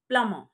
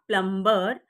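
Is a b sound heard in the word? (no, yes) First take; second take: no; yes. First: The b sound is silent in the middle. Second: The b sound is pronounced in the middle. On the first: The speaker calls it right. "it's plumber. Here, the letter B is silent" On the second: The speaker calls it wrong. "is not plumber"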